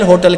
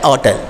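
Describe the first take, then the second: First: होटल with a clear, breathy h at the start; wrong h sound. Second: होटल starting straight on o, no h; the correct होटल, h left out, said low; silent h. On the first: Teacher showing students the wrong होटल with h. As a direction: show the common mistake, voicing the h in होटल. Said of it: "जबकि ये होटल है". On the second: Teacher giving the class the correct होटल without h. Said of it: "सही pronunciation है वो होटल". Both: Shown as a demonstration.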